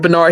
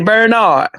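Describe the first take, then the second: First: The name is said plainly, without a drawn-out syllable. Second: The name is drawn out in a country drawl. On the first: "Larry don't say Bernard" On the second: "he say Bernard. Larry is so country ... He hold at that Bernard"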